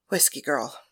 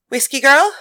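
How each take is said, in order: First: Soft, low greeting; Penthesilea greeting. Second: Calling through a door. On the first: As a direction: greet her quietly and warmly. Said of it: "asked Penthesilea". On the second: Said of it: "Mary announced". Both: Acted.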